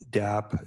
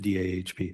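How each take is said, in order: First: The acronym is said quickly without the H. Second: The acronym is said fully with the H.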